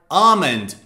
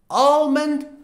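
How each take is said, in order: First: The L is silent in the word. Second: The L is pronounced in the word. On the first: "almond without the L" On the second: "Almond with the L"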